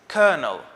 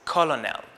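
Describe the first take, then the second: First: The middle has no L sound. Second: The middle has a clear L sound. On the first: The speaker calls it right. "The first word for today is kernel" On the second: The speaker calls it wrong. "I pronounced it as it is spelled"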